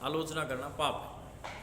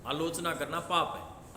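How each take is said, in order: First: Slow, आलोचना hit hardest, falling to the end; stress on आलोचना. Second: Slow, with पाप lifted at the end; stress on पाप. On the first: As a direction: press आलोचना, then settle down. (आलोचना पर ज़ोर, धीमा) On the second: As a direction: lean on पाप, let it rise. (पाप पर ज़ोर, उठता स्वर) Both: Shown as a demonstration. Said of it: "एक शब्द को रट लें".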